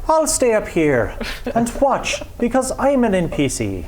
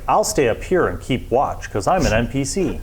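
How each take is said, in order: First: It is said in an Irish accent. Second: It is said without an Irish accent.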